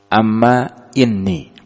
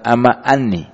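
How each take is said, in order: First: The second word begins with an i vowel. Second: The second word begins with an a vowel. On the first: The speaker calls it right. "annya ini kusirat, dikasrohkan" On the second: The speaker calls it wrong. "bukan amma anni"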